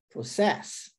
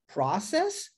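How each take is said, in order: First: Pro-CESS, weight on "cess"; stress on last syllable. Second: PRO-cess, lifted at the end; stress on first syllable. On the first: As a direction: contrast it by stressing "cess" in "process". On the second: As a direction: contrast it by stressing "pro" in "process". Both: Shown as a demonstration. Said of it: "Viu que diferente?".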